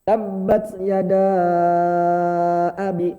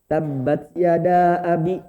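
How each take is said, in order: First: The long vowel is held very long. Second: The long vowel is held a medium length. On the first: "boleh bapak panjang banget" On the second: "Atau sedang, dua harokat boleh"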